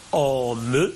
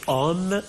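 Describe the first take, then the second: First: "Homme" in two syllables, hom-me; final E pronounced. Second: Said in the usual way. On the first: Shown as a demonstration. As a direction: sound the last E of "Homme". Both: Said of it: "un E qui est prononcé".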